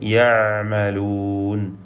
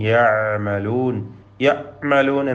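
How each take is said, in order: First: The ain flows smoothly without a hard catch. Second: The ain is cut off with a hard catch. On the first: The speaker calls it right. "തവസ്സുത്തിന്റെ ഹർഫാണ് ഐന്" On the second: The speaker calls it wrong. "ഒരു പിടുത്തം വരരുത്, ഷിദ്ദത്ത് വേണ്ട"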